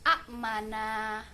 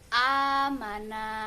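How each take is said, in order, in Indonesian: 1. Hentian glotis menutup suku kata pertama. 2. Vokal pertama dipanjangkan. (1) "asalnya hamzah yang jatuh sukun" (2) "cara membacanya seperti mat tobi'i"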